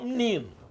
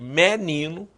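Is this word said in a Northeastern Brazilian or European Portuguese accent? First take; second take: European Portuguese; Northeastern Brazilian. First: It is said with a European Portuguese accent. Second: It is said with a Northeastern Brazilian accent. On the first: "em Portugal" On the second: "lá no Nordeste"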